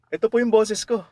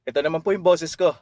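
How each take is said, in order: First: The voice is pitched at its highest note. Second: The voice is pitched at a middle note.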